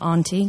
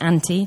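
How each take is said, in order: First: It is said with a non-Northern English vowel. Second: It is said with a Northern English vowel. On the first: This is how other regions say it. "not auntie" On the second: This is how the speaker's region says it. "I'm Northern, so we pronounce it auntie"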